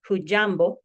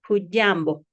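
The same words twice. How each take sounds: First: The middle consonant is a hard j sound. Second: The middle consonant is a soft dy sound. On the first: "rather than a harder j" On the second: "it is pronounced as dia"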